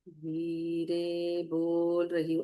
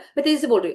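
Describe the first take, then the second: First: The sentence is spoken slowly. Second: The sentence is spoken quickly. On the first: "अगर इसी को धीरे बोलेंगे" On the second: "अगर इसको मेरे को स्पीड में बोलना है"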